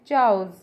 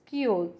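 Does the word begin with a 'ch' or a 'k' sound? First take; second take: ch; k. First: The word begins with a 'ch' sound. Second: The word begins with a 'k' sound. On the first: The speaker calls it wrong. "हम इसे बोलते हैं चाउज, it's not चाउज" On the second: The speaker calls it right. "It's कियोज"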